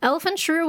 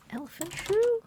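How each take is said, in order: First: Said in the usual way. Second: Baffled repeat. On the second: Real, not acted. Repeating the odd name, baffled.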